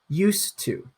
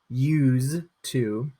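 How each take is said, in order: First: It is said with an s sound. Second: It is said with a z sound. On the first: "This one has a s pronunciation" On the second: "This pronunciation has a z"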